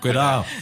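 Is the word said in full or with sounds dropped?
dropped. Half the word is dropped, local Spanish accent.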